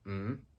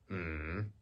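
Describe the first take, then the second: First: The pitch rises from mid to high. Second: The pitch dips down and then rises. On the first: "rising tone" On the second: "falling and then rising"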